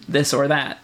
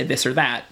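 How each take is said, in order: First: "this or that" with a slow, full "or"; "or" said clearly as "oar"; careful "or". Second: "this or that" with "or" reduced to "er"; "or" slurred into an r-vowel; Midwestern er. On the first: Showing the proper way "or" should sound. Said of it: "the way it should be said". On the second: Showing how he says "or" in Michigan. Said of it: "and er is one of those things where I'd say". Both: Shown as a demonstration.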